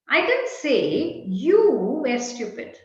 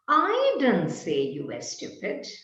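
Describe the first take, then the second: First: The stress falls on the word you. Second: The stress falls on the word I. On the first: It was said about someone else. "Perhaps I said X was stupid" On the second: Someone else said it. "perhaps there was someone else who said you were stupid, but I didn't"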